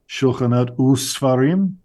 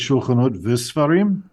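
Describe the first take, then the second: First: The 'and' before sfarim sounds like 'u'. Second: The 'and' before sfarim sounds like 'vi'. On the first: The speaker calls it right. "it becomes u" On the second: The speaker calls it wrong. "they'll regularize"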